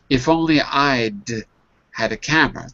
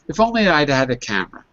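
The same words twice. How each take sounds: First: The sentence is spoken at a slow, careful pace. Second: The sentence is spoken at a fast pace.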